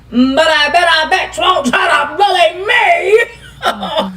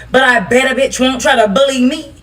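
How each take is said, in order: First: Slow taunting drawl. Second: Said in the usual way. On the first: Acted. Laughing slow taunt to people calling her a bully. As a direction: drag every word out slowly, laughing. Repeats threat, drawn out, laughing.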